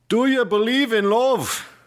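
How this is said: It is said in a put-on Pennsylvania Dutch accent.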